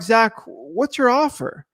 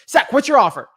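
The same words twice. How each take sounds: First: It is said gently, without force. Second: It is said forcefully, like an attack.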